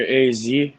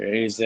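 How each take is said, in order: First: "Z" said as "zee"; "A Z" pronounced "ay-zee"; American zee. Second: "Z" said as "zed"; "A Z" pronounced "ay-zed"; British-Canadian zed. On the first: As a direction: say the letter Z to rhyme with "see". Offers both names of the letter. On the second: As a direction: say the letter Z to rhyme with "bed". Second alternative after "or. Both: Shown as a demonstration.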